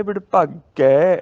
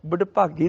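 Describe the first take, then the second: First: ਵਡਭਾਗੈ with long, loud open ai; correct ending. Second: ਵਡਭਾਗੀ with short narrow final vowel; wrong ending. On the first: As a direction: stretch the final ai of ਵਡਭਾਗੈ. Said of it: "ਗੱਗੇ ਨੂੰ ਦੁਲਾਵਾਂ". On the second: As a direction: end ਵਡਭਾਗੀ quickly and closed. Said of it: "ਦੀ ਬਜਾਏ". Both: Shown as a demonstration.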